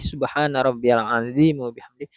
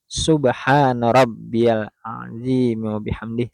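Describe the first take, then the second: First: The phrase is recited quickly and hurriedly. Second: The phrase is recited slowly, word by word. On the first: The person just wants to finish quickly. The speaker calls it wrong. "Kalau bacaan yang terlalu cepat" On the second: The person is attentive to their devotion. The speaker calls it right. "bacaan yang sangat diperhatikan satu persatu"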